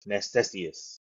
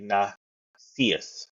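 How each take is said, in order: First: It is said with an extra middle syllable. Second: It is said shorter, without the extra syllable. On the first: The speaker calls it wrong. "I wasn't pronoun- pronunciating right" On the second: The speaker calls it right. "That's how you say it"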